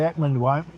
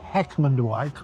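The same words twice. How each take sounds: First: The word begins without any H sound. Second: The word begins with a clear H sound. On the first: This is how local people say it. "never say the H" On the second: This is how outsiders would say it. "Nobody ever says Heckmondwike"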